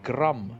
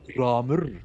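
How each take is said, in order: First: The name ends without a final R sound. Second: The name ends with an added R sound. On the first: "her hound" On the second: "in some in uh, more uh, homosexual pronunciations"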